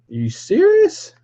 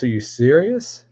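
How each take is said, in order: First: Very high squeal on serious; squeaky disbelief. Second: Said in the usual way. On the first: Real, not acted. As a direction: jump way up in mock outrage.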